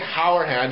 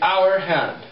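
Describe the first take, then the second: First: The H at the start is pronounced. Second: The H at the start is silent. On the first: The speaker calls it wrong. "You don't say hour hand" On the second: The speaker calls it right. "It's a silent H. You say hour hand"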